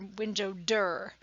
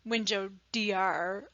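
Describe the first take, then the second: First: The street word is clipped to one syllable. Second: The street word is spelled out as letters.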